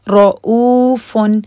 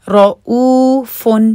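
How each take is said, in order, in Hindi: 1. बीच का ग्लॉटल कैच साफ़ और रुका हुआ है। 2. बीच का ग्लॉटल कैच साफ़ और रुका हुआ है।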